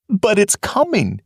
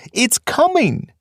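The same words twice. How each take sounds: First: "coming" said high but steadier; "coming" with a falling, uneasy tone; fearful warning. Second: "coming" drawn out slow and very high; the second "coming" slower and higher, pleading; desperate repetition. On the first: First take of the warning. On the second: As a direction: stretch "coming" out in rising dread, slowly and high. Fiver repeats warning, more desperate. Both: Acted.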